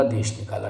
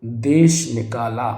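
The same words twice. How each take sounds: First: देश निकाला run together as one word; joined as one. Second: देश निकाला slow, split into two words; separated words. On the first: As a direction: say देश निकाला without a break. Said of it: "दोनों को एक साथ ही होगा". (देश निकाला को एक साथ बोलें) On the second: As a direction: say देश, then निकाला, drawn apart. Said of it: "ये अलग अलग नहीं होगा". (देश निकाला को अलग-अलग, धीरे बोलें) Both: Shown as a demonstration.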